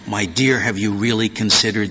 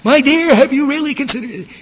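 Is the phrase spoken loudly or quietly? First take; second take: quietly; loudly. First: It is spoken quietly and gently. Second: It is spoken loudly, as a shout. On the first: The speaker is confiding in the listener privately. "approaching someone quietly, confidentially" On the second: The speaker is addressing the listener from a distance. "Are you going to shout this?"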